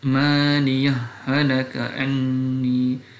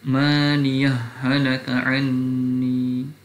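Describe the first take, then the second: The two takes are said the same way.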